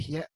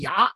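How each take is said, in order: First: The word is pronounced with the syllable xie. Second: The word is pronounced with the syllable ya. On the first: This is the modern reading of the word. The speaker calls it wrong. "不是读邪" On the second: This is the ancient reading of the word. The speaker calls it right. "在古代是读牙"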